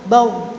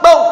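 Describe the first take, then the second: First: The final r flows only slightly. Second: The final r is cut off abruptly. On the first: The speaker calls it right. "maka bacanya bau bau tengah-tengah" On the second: The speaker calls it wrong. "Misalkan ro ini disyidahkan, maka begini"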